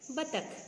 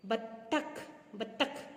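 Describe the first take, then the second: First: बत्तख with one light t, "ba-takh"; quick undoubled t in बत्तख; single consonant. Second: बत्तख with a held double t, "bat-takh"; lingering tt in बत्तख; doubled consonant. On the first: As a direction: say बत्तख smoothly, no hold on the t. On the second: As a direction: say बत्तख in two beats, stopping on the t. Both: Shown as a demonstration. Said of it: "क्या होता है?".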